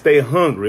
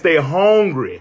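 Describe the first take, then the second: First: It is said in a plain, neutral accent. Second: It is said in a strong country accent.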